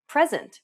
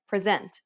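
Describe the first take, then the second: First: "present" as PREZ-ent, opening stressed; stress on first syllable. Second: "present" as pre-ZENT, end stressed; stress on second syllable. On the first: Teacher offering another example, "present" stressed up front. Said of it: "how about present when you". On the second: Teacher giving the meant word, "present" stressed at the end. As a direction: lean on the last syllable of "present". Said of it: "when you actually meant present". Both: Shown as a demonstration.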